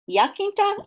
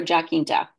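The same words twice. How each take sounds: First: Jacinta said as "yah-KIN-tah"; asking name pronunciation. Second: Jacinta said as "jah-KIN-tah"; alternative name pronunciation. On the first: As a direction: try Jacinta with a Y start and a hard K. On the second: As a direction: try Jacinta with a hard J and a hard K. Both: Shown as a demonstration. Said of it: "uh, is it".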